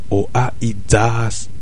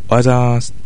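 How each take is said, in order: First: The greeting is said slowly and clipped. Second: The greeting is said fast and run together.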